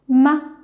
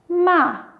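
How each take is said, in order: First: The syllable is short and light in pitch. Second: The pitch falls sharply from high to low.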